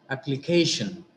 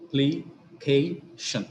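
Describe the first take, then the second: First: Said in the usual way. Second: "Application" slowly split as a, pli, kay, shun; syllable by syllable. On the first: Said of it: "The next is". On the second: Shown as a demonstration. Teacher dividing the next example, "Application" slowly in separate syllables. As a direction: pause between each syllable of "Application". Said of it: "shan is the ultimate syllable".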